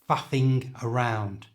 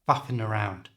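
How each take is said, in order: First: The g at the end of faffing is sounded. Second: The g at the end of faffing is dropped. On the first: The phrase sounds stronger and more important. "If you leave it on, the whole phrase sounds stronger" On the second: The phrase sounds less strong and less important. "If you take it off, ... it doesn't sound quite as strong"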